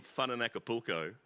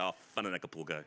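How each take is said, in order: First: Said in the usual way. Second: "Fun in Acapulco" run fast together with gusto. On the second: Shown as a demonstration. Joking about the film title, saying "Fun in Acapulco" fast with gusto. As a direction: rattle off "Oh, Fun in Acapulco" quickly so it sounds rude. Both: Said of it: "if you say it with a bit of gusto".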